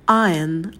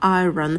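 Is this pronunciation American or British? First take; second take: British; American. First: It is said with no r sound. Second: It is said with an audible r sound. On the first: "Если британский вариант, то звука «р» нет. Будет трифтонг «ая»" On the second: "если американский вариант, тогда мы произносим звук «р»"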